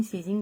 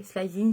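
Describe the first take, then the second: First: "slizing" as SLEE-zing; alternative pronunciation. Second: "Slizing" as SLY-zing, questioning rise; alternative pronunciation. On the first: Vlogger giving up on the right pronunciation, "slizing" as SLEE-zing. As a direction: try "slizing" with a long ee sound. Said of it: "je ne sais pas". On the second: Vlogger weighing an English shade name, "Slizing" as SLY-zing. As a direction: try "Slizing" with an eye sound, tune going up. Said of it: "slizing, je ne sais pas". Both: Shown as a demonstration.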